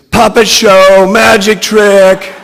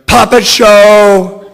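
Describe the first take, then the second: First: High, very loud scream. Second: High, very loud, slow shout. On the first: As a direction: scream it out, dragging the last words. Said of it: "And Brittany screams". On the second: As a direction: belt it out like a wild announcement. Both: A narrator's reading.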